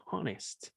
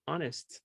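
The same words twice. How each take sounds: First: "honest" with an aspirated H at the start; wrong sounded H. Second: "honest" starting straight on the vowel, H silent. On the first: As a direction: show the mistake, breathe out the H of "honest". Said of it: "no se dice honest". ("honest" con la H aspirada, pronunciada por error) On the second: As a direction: drop the H of "honest", begin on the O. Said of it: "con la H muda". ("honest" con la H muda, empezando en la vocal) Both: Shown as a demonstration.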